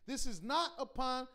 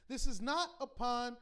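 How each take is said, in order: Both takes have the same delivery.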